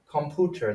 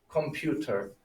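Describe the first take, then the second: First: "computer" said com-POO-ter, no y-glide; wrong German-style U. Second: "computer" said com-PYOO-ter, with a y-glide; English U sound. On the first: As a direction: drop the "you" sound from "computer" for "oo". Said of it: "That would sound strange". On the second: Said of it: "they adopted that U sound". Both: Shown as a demonstration.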